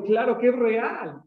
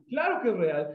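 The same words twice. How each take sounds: First: "Claro que es real" drawn out slow, higher and louder; slow emphatic. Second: Said in the usual way. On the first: Real, not acted. Preacher insisting to the congregation, slow and emphatic. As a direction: lean hard on "Claro que es real", slowly. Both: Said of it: "repeats claim for emphasis".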